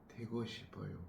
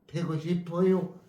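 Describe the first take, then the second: First: The pitch falls at the end of the phrase. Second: The pitch rises at the end of the phrase. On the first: The speaker humbly accepts what is said. The speaker calls it right. "뒤에 말을 내리는 거예요. 꼬리를 내리는 거예요" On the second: The speaker is pushing back defiantly. The speaker calls it wrong. "위로 올라가면 대적이에요"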